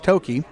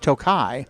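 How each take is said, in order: First: The word ends with an 'ee' sound. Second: The word ends with an 'eye' sound. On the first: The speaker calls it right. "but it's Toki" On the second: The speaker calls it wrong. "they mispronounce it as Tokai"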